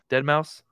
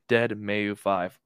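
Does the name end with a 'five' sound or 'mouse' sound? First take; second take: mouse; five. First: The name ends with the word mouse spoken. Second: The name ends with the number five spoken. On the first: The speaker calls it right. "he prefers to be called [name]" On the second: The speaker calls it wrong. "the way I pronounce it"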